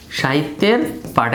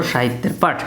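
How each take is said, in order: First: "সাহিত্যের", a pause, then "পাঠ"; teacher's drill, pausing between "সাহিত্যের" and "পাঠ"; word by word. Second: "সাহিত্যের পাঠ" joined as one phrase; lower, connected "সাহিত্যের পাঠ" for repeating; said together. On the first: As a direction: split "সাহিত্যের" and "পাঠ" into separate words. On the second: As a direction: run "সাহিত্যের" straight into "পাঠ", no pause. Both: Shown as a demonstration. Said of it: "একসাথে বলো".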